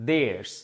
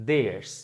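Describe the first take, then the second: The two takes are said the same way.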